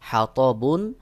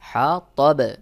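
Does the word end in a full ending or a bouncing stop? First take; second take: full ending; bouncing stop. First: The word ends with a full nasal ending. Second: The word ends in a bouncing stop. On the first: "বা দুই পেশ বুন আছে" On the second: "সহি উচ্চারণ হলো হা তবে"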